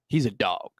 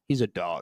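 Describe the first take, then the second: First: It sounds admiring, like a compliment. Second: It sounds demeaning, like an insult.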